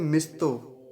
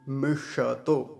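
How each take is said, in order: First: It has a dental s joined straight to t. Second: It has a full retroflex sh sound. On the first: The speaker calls it wrong. "कई बार दंत्य सकार ले आते हैं ... आधा करके बोलते हैं" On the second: The speaker calls it right. "मूर्धन्य शकार है श और पूरा बोलेंगे"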